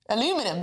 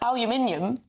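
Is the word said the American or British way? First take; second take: American; British. First: It is said with the American four-syllable pronunciation. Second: It is said with the British five-syllable pronunciation. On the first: "almost uh, pronounced"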